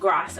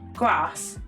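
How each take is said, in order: First: It is said in a northern English accent. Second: It is said in a southern English accent. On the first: "we'll say bath or like grass" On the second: "they'll say like grass"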